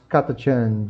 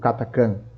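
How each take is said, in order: First: The middle consonant is a 'ch' sound. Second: The middle consonant is a 'k' sound. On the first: This version sounds funnier. "Katachan é mais engraçado" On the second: This version is the one used in the audiobooks. "nos livros de áudio eles falam Katakan"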